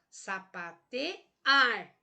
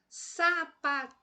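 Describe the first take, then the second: First: The stress is on the syllable ar. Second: The stress is on the syllable te. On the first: The speaker calls it right. "Agora vamos ver a última sílaba, o ar" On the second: The speaker calls it wrong. "eu vou forçar aí o T"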